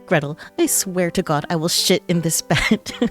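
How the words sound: It is said in a put-on character voice.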